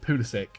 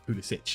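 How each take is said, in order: First: The name is said with an English pronunciation. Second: The name is said with a Croatian pronunciation. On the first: This is the version used in England. "when he came to England, he told everyone it's Pulisic" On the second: This is the proper version of the name. "you guys can finally say it properly, like Pulisic"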